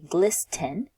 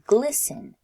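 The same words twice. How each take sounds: First: The T sound in the middle is pronounced. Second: The T sound in the middle is silent. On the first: The speaker calls it wrong. "we don't pronounce the T sound. So we wouldn't say glisten" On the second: The speaker calls it right. "we would say glisten"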